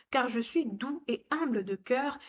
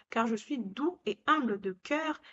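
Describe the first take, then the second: The two takes are said the same way.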